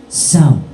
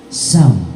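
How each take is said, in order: No difference in how they are said.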